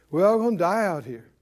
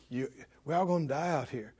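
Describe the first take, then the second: First: Mock voice of people mouthing what they were fed; puppet-like repeating. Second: Low, hushed and quick; enemy's planted thought. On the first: Preacher imitates people open their mouth and repeat it, voiced aloud. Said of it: "and they say". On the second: Acted. Preacher voices the enemy prompting the people, low and hushed. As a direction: drop right down, as if slipping a thought into someone's head. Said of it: "He says".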